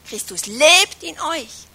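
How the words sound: The stress falls on the word lebt. He is active and alive, not hidden. "Oder hat er die Betonung auf lebt?"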